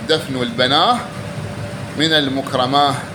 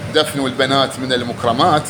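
First: The word for daughters ends with an h sound. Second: The word for daughters ends with a t sound. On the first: "قرأوها هكذا دفنوا البناه من المكرمات بالهاء" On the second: "اللي هي البنات"

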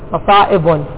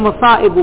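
First: The word ends with a final n sound. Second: The word ends without a final n sound. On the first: The poet broke the rule to fit the verse. "مصائب نونها" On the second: It follows the regular rule for this noun pattern. "مصائب لا لا تنون"

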